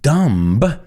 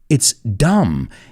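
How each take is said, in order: First: The final B sound is pronounced. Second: The final B sound is silent. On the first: The speaker calls it wrong. "So it's not uh" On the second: The speaker calls it right. "we don't pronounce that B in there"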